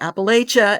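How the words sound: It is said with a Northern pronunciation.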